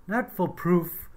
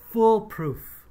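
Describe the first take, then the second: First: "not foolproof" said slowly, "foolproof" with even stress; corrected stress. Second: "foolproof" punched high and loud; wrong stress. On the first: Teacher correcting the newsreader's "foolproof" slowly. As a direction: set "not foolproof" right, slow and deliberate. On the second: Teacher mimicking the newsreader's wrong "foolproof" stress. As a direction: hit "foolproof" hard, higher and louder. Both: Shown as a demonstration.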